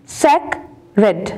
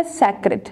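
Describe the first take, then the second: First: sacred split slowly into सेक, रेड; two separate beats on sacred with a pause between; syllable by syllable. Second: Said in the usual way. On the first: Shown as a demonstration. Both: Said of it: "टू syllable words".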